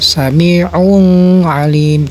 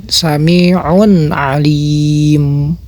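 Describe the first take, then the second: First: "sami'un alim" with the n turned into a long humming ng; slow demo of nasal hum in "sami'un alim"; wrongly hummed tanwin. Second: Slow "sami'un alim", n clear, last syllable held long; drawn-out model reading of "sami'un alim"; clear tanwin. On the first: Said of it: "jangan ada dengung". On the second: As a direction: recite "sami'un alim" with a clean n and long "lim". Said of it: "tanwin ketemu ain". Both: Shown as a demonstration.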